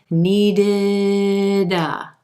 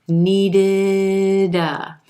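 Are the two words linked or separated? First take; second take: linked; linked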